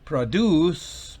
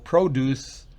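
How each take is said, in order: First: The stress is on the second syllable. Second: The stress is on the first syllable. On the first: It means to make something. "va en la última sílaba" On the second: It means fruit or vegetables. "Si va en la primera es sustantivo"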